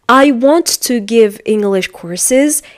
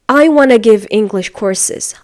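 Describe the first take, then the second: First: "Want to" is said in full. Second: "Want to" is reduced to "wanna". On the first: "for example" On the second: "Instead of that, he or she is going to say"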